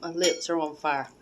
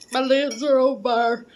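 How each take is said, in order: First: Said in the usual way. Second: Higher and louder, burning lips; loud exclamation. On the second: Real, not acted. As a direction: cry out that the lips burn.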